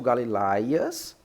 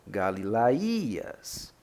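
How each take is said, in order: First: "Galilaias" stressed on "lai", without a separate í; alternative pronunciation. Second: "Galilaías" with a long, separately stressed í; correct Greek pronunciation. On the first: Teacher conceding how some pronounce it, stress on LAI. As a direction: glide through "Galilaias" as ga-li-LAI-as. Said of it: "se alguns pronunciam". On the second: Teacher giving the correct pronunciation, long stressed í. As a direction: say "Galilaías" as ga-li-la-Í-as, drawn out. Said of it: "a pronúncia correta é". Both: Shown as a demonstration.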